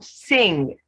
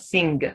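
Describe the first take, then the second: First: It ends in ng with no hard G. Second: It ends with an audible hard G. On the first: The speaker calls it right. "So sing" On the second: The speaker calls it wrong. "not sing"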